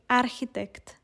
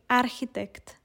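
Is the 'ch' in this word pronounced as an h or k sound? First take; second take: h sound; h sound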